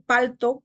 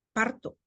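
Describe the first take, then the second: First: Said in the usual way. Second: "palto" said as "parto". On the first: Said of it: "en vez de decir". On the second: Shown as a demonstration. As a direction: swap the l for r, "parto". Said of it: "cambiamos L por R".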